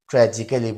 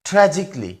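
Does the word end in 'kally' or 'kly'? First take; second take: kally; kly. First: The ending is said with a full 'kally' syllable. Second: The ending is reduced to a short 'kly'. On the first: The speaker calls it wrong. "এটাকে আমরা অনেকে ট্র্যাজিক্যালি বলি, কিন্তু এটা আসলে ভুল উচ্চারণ" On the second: The speaker calls it right. "এটা সঠিক উচ্চারণ হবে ট্র্যাজিকলি"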